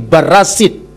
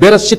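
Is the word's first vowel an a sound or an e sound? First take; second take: a sound; e sound. First: The first vowel is an a sound. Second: The first vowel is an e sound. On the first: This is the Samaritan reading. "tapi Barasit, dibaca A" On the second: "bukan Bereshit"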